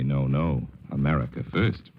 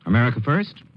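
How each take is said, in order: First: Dry, lower ironic reply. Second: High, indignant double take; outraged question. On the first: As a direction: toss it back with quiet irony. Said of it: "says Russia with some irony". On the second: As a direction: bristle at the words. Senator outraged by the phrase. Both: A narrator's reading.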